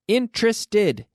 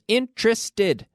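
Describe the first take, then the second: First: The word is said with three syllables. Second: The word is said with three syllables.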